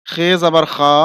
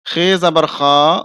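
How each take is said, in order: Both takes have the same delivery.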